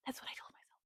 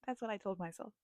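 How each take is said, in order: First: Sharp gasp then hushed fast whisper; breathless whisper, sped up. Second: Said in the usual way. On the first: Shown as a demonstration. Reader confessing in a gasping whisper.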